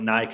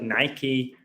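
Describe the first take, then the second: First: It is said the speaker's own non-American way. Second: It is said the American way.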